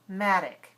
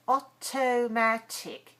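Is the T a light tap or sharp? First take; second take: light tap; sharp. First: The T is a light, quick tap. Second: The T is a sharp, strong stop. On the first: The speaker calls it right. "American English, automatic. Second syllable is weak" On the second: The speaker calls it wrong. "Too strong"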